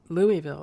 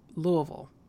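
First: The name is said the way outsiders say it. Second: The name is said the way locals say it. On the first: The speaker is not from the area. The speaker calls it wrong. "Kentucky is not pronounced Louisville" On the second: The speaker is from the area. The speaker calls it right. "It's Louisville"

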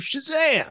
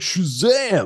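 First: It is said in a high, boyish voice. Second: It is said in a deep, adult voice. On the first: The character sounds like a young boy. The speaker calls it right. "I want to hear Shazam" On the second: The character sounds like a grown man. The speaker calls it wrong. "he sounds like [name]"

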